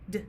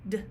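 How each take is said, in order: Both takes have the same delivery.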